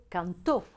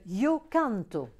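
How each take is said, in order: First: Cantó stressed on the final TÓ; "cantó" with a strong last syllable. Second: Canto stressed on CAN; slow "yo canto", leaning on CAN; stress on first syllable. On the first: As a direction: push the end of cantó, can-TÓ. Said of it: "donc accent sur le O". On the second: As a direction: hit CAN in canto, let to drop. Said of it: "différencié de el gallo cantó". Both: Shown as a demonstration.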